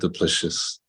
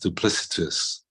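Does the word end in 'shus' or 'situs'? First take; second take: shus; situs. First: The word ends with a 'shus' sound. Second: The word ends with a 'situs' sound. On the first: The speaker calls it wrong. "not duplicious" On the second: The speaker calls it right. "the word is duplicitous"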